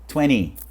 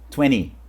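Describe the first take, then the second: Both takes have the same delivery.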